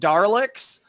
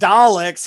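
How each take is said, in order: First: The first syllable has an R sound. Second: The first syllable has no R sound. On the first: Someone mishears the British vowel as having an R. The speaker calls it wrong. "so he says Darleks to this day" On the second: This is how the British say it. The speaker calls it right. "the British say it sounds like they say Daleks"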